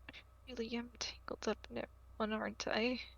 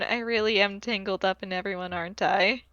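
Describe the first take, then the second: First: The line is mumbled quietly and indistinctly. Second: The line is said clearly at normal volume. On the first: "you can hear him mumble something along the lines of" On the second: "in a normal audible voice"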